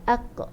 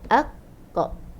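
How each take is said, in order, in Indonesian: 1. Kata "aq-qa" diucapkan dengan kecepatan ngaji yang biasa. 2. Kata "aq-qa" dipanjangkan dengan gerakan lambat. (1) "Kalau misal kata kita ngaji" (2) "saya slow motion kan dia"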